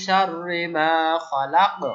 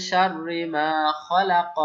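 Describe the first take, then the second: First: Slow, louder recitation ending খলাক on a sukun with a bounce; stopping with qalqala. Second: Slow chanted Quranic recitation, vowel kept on খলাক; Quran recitation, full vowel. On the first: Teacher shows students how to stop on খলাক, bouncing the ক. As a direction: chant শাররি মা খলাক and stop on খলাক with a qalqala echo on the final ক. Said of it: "তাহলে কি বলতে হবে". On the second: Teacher recites the verse to students, slow and chanted. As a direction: recite শাররি মা খলাক slowly, sounding the final vowel. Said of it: "যদি স্বাভাবিক নিয়মটা ছিল".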